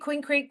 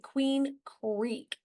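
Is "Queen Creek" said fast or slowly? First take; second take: fast; slowly. First: It is said quickly, run together. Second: It is said slowly and carefully. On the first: The speaker calls it wrong. "Say Queen Creek three times really fast" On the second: The speaker calls it right. "I have to say it slowly"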